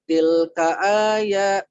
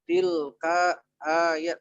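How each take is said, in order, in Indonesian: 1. Digabung tanpa jeda. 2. Dipisah dengan jeda. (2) "Ini bukan tilka ayat tapi dilangsungkan"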